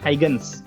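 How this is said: The name is said with an English pronunciation. "kalau di Inggris kan Huygens gitu ya"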